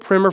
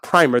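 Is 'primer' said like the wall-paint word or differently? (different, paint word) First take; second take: different; paint word. First: It is not said like the wall-paint word. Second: It is said like the wall-paint word. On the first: It names a basic introductory book. The speaker calls it right. "The Gospel Primer for Christians" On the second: It names a coating put on a wall before painting. The speaker calls it wrong. "but it's not primer. That's what you put on a wall before you paint it"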